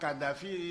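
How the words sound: The name is said with French sounds. This is not how the man himself says it. The speaker calls it wrong. "il ne prononce pas comme ça"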